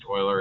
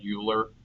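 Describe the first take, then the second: First: The name is said with a French-style pronunciation. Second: The name is read out as it is spelled. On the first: "but it's pronounced Euler, again, French" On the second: "It's spelled Euler"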